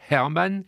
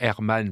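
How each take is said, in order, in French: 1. Il se prononce à l'allemande, h prononcé. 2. Il se prononce à la française, h muet. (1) "franchir le Rhin et de me rappeler mes cours de prononciation" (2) "Donc le Hermann va devenir"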